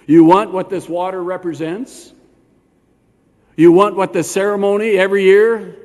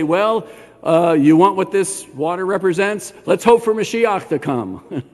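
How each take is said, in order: First: Louder, pointed challenge, rising at the end; challenging question. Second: Mock hedging. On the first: Acted. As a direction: press "You" like a direct challenge. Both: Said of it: "Notice Yeshua doesn't say".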